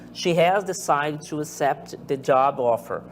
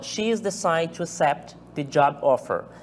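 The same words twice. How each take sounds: First: She has is said as two full words. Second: She has is contracted into one syllable. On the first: The sentence sounds more formal. "não está abreviado" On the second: The sentence sounds more informal. "a forma abreviada"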